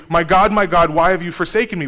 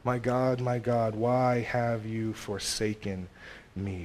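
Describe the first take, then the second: First: 大きく張り上げる、見捨てられた叫び; anguished cry. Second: Softer, slow, sorrowful prayer; hushed lament. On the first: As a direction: cry it out loud to God. Psalm cry quoted at full force. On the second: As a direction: let the words sink, slowly and quietly. Psalm lament quoted softly. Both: Acted.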